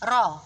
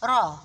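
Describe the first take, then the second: First: The r has a short, light tongue-tip trill. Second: The r has a short, light tongue-tip trill.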